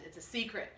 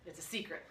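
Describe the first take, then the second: First: Said in the usual way. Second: Softer, lower secret tone; secretive hush. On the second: Shown as a demonstration. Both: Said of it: "repeated secretively".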